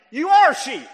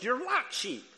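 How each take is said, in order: First: "are" hit very loud and high; forceful "are", raised well above the rest; stress on are. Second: "like" picked out as the key word; stress on like. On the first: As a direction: punch "are" hard, as a firm correction. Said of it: "He said you're like sheep". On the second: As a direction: lean on "like" to mark the distinction. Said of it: "he didn't say you were". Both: Shown as a demonstration.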